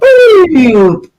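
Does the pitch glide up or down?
down. The pitch glides downward as the folds loosen.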